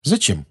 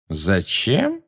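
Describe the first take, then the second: First: Said in the usual way. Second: Questioning lift, drawn out in disbelief; incredulous amazement. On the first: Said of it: "он хотел, чтобы я пришёл". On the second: A narrator's reading. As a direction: ask it slowly, as if you can't believe it. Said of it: "прозвучало недоверчивое изумление".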